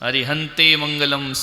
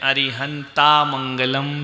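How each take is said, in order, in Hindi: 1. पहला शब्द 'e' स्वर से खत्म होता है। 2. पहला शब्द लंबे 'aa' स्वर से खत्म होता है। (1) "अरिहंते भी नहीं बोलना है। अरिहंते मंगलम सिद्धे मंगलम, गलत।" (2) "कई लोग बोलते हैं अरिहंता मंगलम सिद्धा मंगलम, ये गलत है।"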